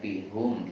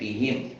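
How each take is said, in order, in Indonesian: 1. Suku kata terakhir memiliki vokal 'u'. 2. Suku kata terakhir memiliki vokal 'i'. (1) "bukan fihum" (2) "tapi mengikuti jadinya fihim"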